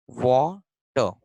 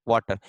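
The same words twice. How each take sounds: First: water said very slowly, broken in two as if writing it; drawn out. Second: Said in the usual way. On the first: Shown as a demonstration. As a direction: stretch water into two slow separate syllables, वा and टर. Teacher writes the word out. (Water को धीरे-धीरे, तोड़कर बोलें)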